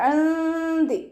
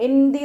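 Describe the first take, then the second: First: ഇന്തി chanted higher, nūn hidden and nasalized; correct recitation. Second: ഇന്തി with a hard t and no hidden nūn; wrong pronunciation. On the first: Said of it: "നൂനിൻ്റെ സൗണ്ടിനെ ഒന്ന് മറച്ച് വെക്കും". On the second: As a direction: say ഇന്തി spoken flat as the mistake to avoid. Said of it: "ഇന്തി എന്നായി പോവരുത്". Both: Shown as a demonstration.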